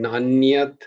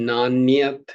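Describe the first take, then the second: No difference in how they are said.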